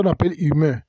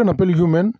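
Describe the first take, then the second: First: "humain" said the French way, ü-MEH; French pronunciation. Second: "human" said the English way, YOO-men; English pronunciation. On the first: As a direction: end "humain" on an open vowel. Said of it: "En français". (prononciation française de « humain ») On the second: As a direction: say "human" with a y-glide at the start. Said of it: "en anglais". (prononciation anglaise de « human ») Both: Shown as a demonstration.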